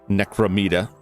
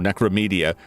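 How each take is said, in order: First: The name ends with a plain '-meda' sound. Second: The name ends with an extra '-media' sound. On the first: This follows the written spelling. "but it's M E M E D A" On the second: This is how the characters say it. "They keep pronouncing it Necromedia"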